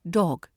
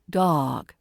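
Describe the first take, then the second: First: It has a round British short O vowel. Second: It has an open American vowel sound.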